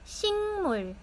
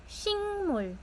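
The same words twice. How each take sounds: Both takes have the same delivery.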